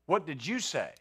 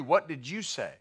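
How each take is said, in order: First: "you" stressed, the question falling at the end; pointed stress on "you" in a falling question. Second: WHAT lifted and hit hardest, the rest falling away; a questioning stress on "What". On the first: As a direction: lean on the word you, softer overall. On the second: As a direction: lean on the word what and let the question drop. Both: Shown as a demonstration. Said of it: "Lord, I'm gonna be steadfast to you".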